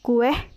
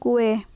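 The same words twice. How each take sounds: First: An extra h sound is added. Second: No extra h sound is added. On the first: The speaker calls it wrong. "contoh salahnya yaitu" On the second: The speaker calls it right. "yang benarnya yaitu"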